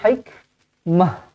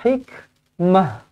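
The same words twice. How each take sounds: No difference in how they are said.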